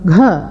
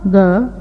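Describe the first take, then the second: First: க as g followed by a puff of air; voiced aspirated g. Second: க softened to g, without a puff; voiced g. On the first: Teacher contrasting four sounds, க as aspirated "gha". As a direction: say க as breathy "gha". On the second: Teacher contrasting four sounds, க as voiced "ga". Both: Shown as a demonstration. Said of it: "க என்ற நான்கு உச்சரிப்புகளை".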